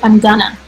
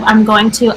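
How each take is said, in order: First: 'Going to' is reduced to a single word, 'gonna'. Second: Both words of 'going to' are said in full. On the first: "Or I'm gonna" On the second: "Instead of I'm going to"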